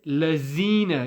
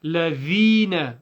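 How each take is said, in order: First: "lazina" with a buzzing z for dh; "lazina" with no th sound; wrong z sound. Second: "ladhina" slow with a voiced th and long ee; drawn-out "ladhina", tongue-tip th; correct dhal. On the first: Retold or imitated. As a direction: imitate the slip "lazina", z in the middle. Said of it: "Some people say". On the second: Shown as a demonstration. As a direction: put effort into the dh of "ladhina". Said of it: "It's not so".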